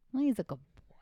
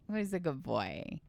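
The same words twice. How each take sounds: First: Whispered to herself, higher. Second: Said in the usual way. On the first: Real, not acted. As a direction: breathe the words as a musing whisper. Muses over the clue in whispers.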